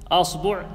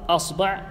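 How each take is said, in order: The two takes are said the same way.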